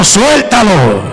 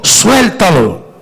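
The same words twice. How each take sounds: First: "Suéltalo" muy despacio, tono que cae; suéltalo lento y enfático. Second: "Suéltalo" dicho despacio, cayendo al final; suéltalo lento y enfático. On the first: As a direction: alarga "Suéltalo" como orden suave. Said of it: "Dígaselo, Maduro". ("Suéltalo" lento para repetir al vecino) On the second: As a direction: marca cada sílaba de "Suéltalo". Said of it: "Dígale que está a su lado, "Suéltalo". ("Suéltalo" pausado y firme) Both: Shown as a demonstration.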